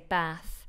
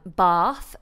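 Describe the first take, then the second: First: The vowel is a short flat American sound. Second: The vowel is a long open 'ah' sound. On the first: "in America, they say bath" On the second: "when I say um, bath"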